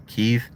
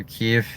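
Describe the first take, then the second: First: "Kiev" said as one syllable, like "keef"; corrected Kiev. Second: "Kiev" said softly as "kee", trailing off; first Kiev try. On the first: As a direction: settle on "Kiev" pronounced "keef". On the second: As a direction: start to correct yourself, "Kiev" as "kee". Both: Shown as a demonstration. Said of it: "Or Kiev".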